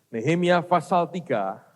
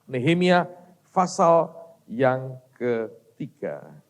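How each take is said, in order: First: Said in the usual way. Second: Word by word, with gaps; drawn-out, separated words; slow, spaced announcement. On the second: Real, not acted. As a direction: dictate the reference very slowly. Announces the verse for listeners.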